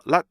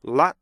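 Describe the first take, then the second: First: LOT short, as a single closed syllable; "lot" with no separate T; one-beat lot. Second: LOT punched, then a separate released T; "lot" with a gap before its T; two-beat lot. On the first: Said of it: "이게 하나가 아니고요". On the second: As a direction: split "lot" at the stop. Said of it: "이렇게 두 개의 리듬으로". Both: Shown as a demonstration.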